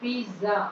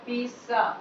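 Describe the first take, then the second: First: The middle consonant is a z sound. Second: The middle consonant is a ts sound. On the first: The speaker calls it wrong. "पिज्जा जेड है पिज्जा" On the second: The speaker calls it right. "यहाँ पिज्जा सा वाला sound होता है"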